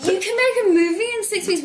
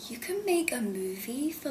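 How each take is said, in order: First: Much higher and louder, astonished; incredulous. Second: Hushed whisper of amazement; whispered disbelief. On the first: Actor retelling hearing the short shoot schedule, loud incredulous cry. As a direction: blurt it out in total disbelief. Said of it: "I was like". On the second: Actor recalling shock at small film budget, hushed whisper. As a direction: whisper it like a secret you can't believe. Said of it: "I, I was like". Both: Retold or imitated.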